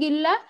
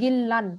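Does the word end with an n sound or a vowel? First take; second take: vowel; n sound. First: The word ends on a vowel without final n. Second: The word ends with a final n sound. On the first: The reader stops after this word. "থেমে গেলে গিল্লা" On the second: The word is cited on its own. "ওয়ার্ডটা বলতেছি তখন আমি বলতেছি গিল্লান"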